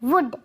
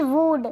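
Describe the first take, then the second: First: The vowel is short and clipped. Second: The vowel is drawn out long. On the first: The speaker calls it right. "वुड ना कि" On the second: The speaker calls it wrong. "वुड नहीं पढ़ेंगे, गलत हो जाएगा"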